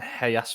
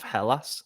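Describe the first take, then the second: First: The double L is said like a Y. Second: The double L is said like an L. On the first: The speaker calls it wrong. "I kept saying Hellas Verona" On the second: The speaker calls it right. "instead of Hellas"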